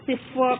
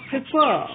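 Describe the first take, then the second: First: Said in the usual way. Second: Prefer with the fer pushed up and held; stress on second syllable. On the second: Shown as a demonstration. Teacher showing learners where prefer is stressed. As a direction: lean on the second half of prefer. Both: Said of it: "Second syllable is stressed".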